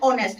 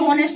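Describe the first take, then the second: First: The word begins with a vowel, no h. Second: The word begins with a clear h sound. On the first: The speaker calls it right. "इसमें एच silent होता है" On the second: The speaker calls it wrong. "होनेस्ट तो नहीं होता"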